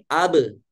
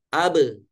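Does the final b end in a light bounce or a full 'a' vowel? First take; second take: full vowel; full vowel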